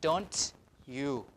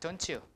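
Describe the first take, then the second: First: The t and y sounds stay separate. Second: The t and y merge into a ch. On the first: "instead of" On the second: "it will become a T hook"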